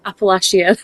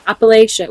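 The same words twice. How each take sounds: First: Appalachia with a short flat a: app-uh-LATCH-ee-uh; northern pronunciation. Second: Appalachia with a long ay: app-uh-LAY-shuh; trying the pronunciation. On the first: Mocking her own northern take on Appalachia: app-uh-LATCH-ee-uh with a rise. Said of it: "it's so northern". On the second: To her friend, trying a place name: Appalachia as app-uh-LAY-shuh. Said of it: "How do you pronounce it?". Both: Real, not acted.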